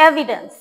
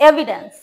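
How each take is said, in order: No difference in how they are said.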